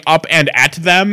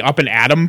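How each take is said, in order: First: "up and at them" with every word separate and THEM fully pronounced; overly enunciated. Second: Said in the usual way. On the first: Retold or imitated. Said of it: "And he enunciated. It was like". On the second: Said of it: "ruining the ... pun".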